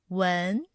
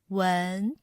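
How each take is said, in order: First: The pitch rises from middle to high. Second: The pitch rises from middle to high.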